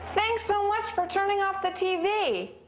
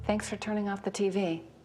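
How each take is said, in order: First: It sounds absolutely thrilled and very enthusiastic. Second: It sounds flat, with little enthusiasm.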